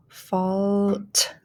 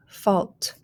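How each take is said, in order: First: "fault" stretched out, final t set apart; slow blended "fault"; blending. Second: Said in the usual way. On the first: Shown as a demonstration. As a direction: draw out "fault" and release the t late. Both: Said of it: "start blending".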